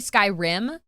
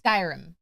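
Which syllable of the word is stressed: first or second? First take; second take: second; first. First: The stress falls on the second syllable. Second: The stress falls on the first syllable. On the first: It sounds dirty. "you're enunciating the rim" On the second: It sounds like the ordinary game title. "because it's Skyrim"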